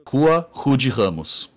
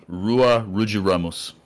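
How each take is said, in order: First: Rua Rude Ramos with each R breathed as an h; Brazilian R. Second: Rua Rude Ramos with hard English r's; gringo R. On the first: Shown as a demonstration. Naming grandma's street, R's said like H's in Rua Rude Ramos. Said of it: "He just couldn't do the, that R". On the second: Retold or imitated. Imitating dad on grandma's street, gringo R's in Rua Rude Ramos. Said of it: "he would pronounce it".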